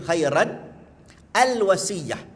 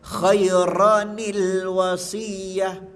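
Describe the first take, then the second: First: The two words are read apart without linking. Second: The words are linked with an added ni sound. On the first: The speaker calls it wrong. "ada tanwin kan" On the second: The speaker calls it right. "dia kena sambung kan? Akhirnya kita kena tambah nun kecil kat bawah"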